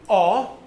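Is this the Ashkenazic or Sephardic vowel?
Ashkenazic. The vowel is said the Ashkenazic way.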